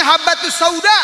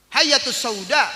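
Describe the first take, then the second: First: Habatus sauda, said with a clear b and a rising end; correct word. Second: Hayatus sauda, the mistaken reading of the word; wrong word said. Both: Shown as a demonstration. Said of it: "harusnya habatus sauda".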